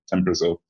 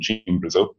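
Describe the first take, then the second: First: The name is said with English pronunciation. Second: The name is said with Brazilian Portuguese pronunciation.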